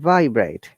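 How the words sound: The pitch goes from high to low. The word is used as a noun. "If it is a noun, it is upper tone to lower tone"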